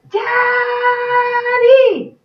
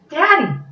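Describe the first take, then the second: First: It is yelled very loudly. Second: It is said a little louder.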